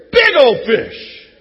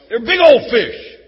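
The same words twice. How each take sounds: First: Very slow, loud, stretched words; drawn-out fish boast. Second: Loud, slowed brag about the size; big fish boast. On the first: Preacher hams up fish story, slow stretched boast. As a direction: drag out every word like a tall tale. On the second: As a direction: sell the fish story big. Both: Shown as a demonstration. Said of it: "It's a fish story".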